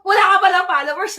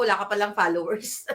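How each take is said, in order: First: Loud mock jab about no followers; a louder, bigger second take of the tease; loud teasing exclaim. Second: Said in the usual way. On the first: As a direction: repeat it louder, laughing at him. Repeated after laughing, much louder.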